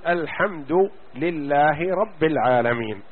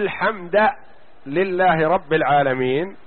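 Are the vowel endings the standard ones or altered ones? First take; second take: standard; altered. First: The vowel endings are the standard Quranic ones. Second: A vowel ending is changed from the standard. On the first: The wording is kept as revealed. The speaker calls it right. "تقرأ الفاتحة تقول" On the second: The wording is distorted. The speaker calls it wrong. "هذا تحريف لفظي"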